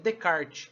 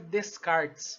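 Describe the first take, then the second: First: The name is said with its actual, usual pronunciation. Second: The name is read out exactly as it is spelled. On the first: The speaker calls it right. "mas a pronúncia é Descartes" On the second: The speaker calls it wrong. "A gente escreve Descartes"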